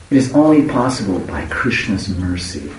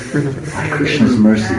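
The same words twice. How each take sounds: First: Said in the usual way. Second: "By Krishna's mercy" slowed with stress on Krishna's; slow emphatic repeat. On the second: Shown as a demonstration.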